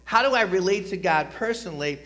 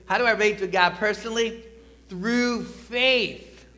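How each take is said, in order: First: Said in the usual way. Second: Louder, higher call to the congregation; congregation call-and-response. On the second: Shown as a demonstration. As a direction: lead the room in saying it together. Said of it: "everybody say this with me".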